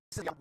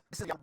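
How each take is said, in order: Both takes have the same delivery.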